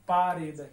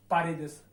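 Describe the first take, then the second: First: पारेद with a falling close; teacher models पारेद; singular form. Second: पारेदस said pa-re-des with an added es; पारेदस stressing the es ending; teacher models पारेदस; plural form. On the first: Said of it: "नियम के अनुसार दे आया है". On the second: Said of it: "नियम के अनुसार ए से लगा दूंगा". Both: Shown as a demonstration.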